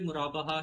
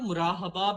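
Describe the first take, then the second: First: The h sound comes after the b. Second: The h sound comes before the b. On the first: The speaker calls it right. "मुराबहा ही मतलब pronounce किया जाता है" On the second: The speaker calls it wrong. "कुछ लोग इसको ना मुराहबा भी कहते थे"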